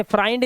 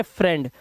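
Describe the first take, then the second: First: "फ्राइंड" with an eye vowel, as FRY-nd; wrong reading. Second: "फ्रेंड" with a short e, rhyming with bend; teacher's model "फ्रेंड" with an eh vowel; correct reading. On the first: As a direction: misread friend as "फ्राइंड", rhyming with find. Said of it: "इसे फ्राइंड नहीं पढ़ते". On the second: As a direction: say "फ्रेंड" as FREND, no eye sound. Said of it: "इसे पढ़ते हैं फ्रेंड". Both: Shown as a demonstration.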